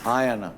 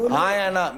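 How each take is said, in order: First: Said in the usual way. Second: Insistent demand. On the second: Real, not acted. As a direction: demand an answer right now. Heated argument, demanding answer. (ऊँची आवाज़ में ज़िद से "हाँ या ना?" पूछना)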